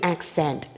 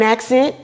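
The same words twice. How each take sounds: First: The word is said with a standard vowel. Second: The word is said with a Southern vowel. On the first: The speaker calls it right. "it's an accent" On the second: The speaker calls it wrong. "It's not an accent"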